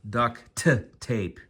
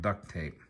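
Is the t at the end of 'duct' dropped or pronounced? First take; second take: pronounced; dropped. First: The first word ends with a clear t sound. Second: The first word sounds like 'duck' without t. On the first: The speaker calls it right. "Let me say that again" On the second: The speaker calls it wrong. "how I said duck instead of duct tape"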